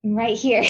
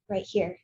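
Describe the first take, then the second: First: Louder, insistent call for attention; insistent repeat. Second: Said in the usual way. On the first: Acted. Woman to lover who wants to see her, loudly insistent. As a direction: say it louder to make him notice you.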